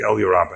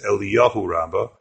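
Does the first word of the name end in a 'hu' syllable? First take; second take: no; yes. First: The first word has no final 'hu' syllable. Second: The first word ends with a 'hu' syllable. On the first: The speaker calls it right. "It was the Elyur Rabbah" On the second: The speaker calls it wrong. "Some people mispronounce it as Eliyahu Rabbah"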